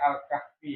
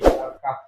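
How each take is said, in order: First: The word ends on an added final vowel. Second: The word ends on a consonant with no vowel. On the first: The speaker calls it wrong. "Jadi bukan Al-Kahfi" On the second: The speaker calls it right.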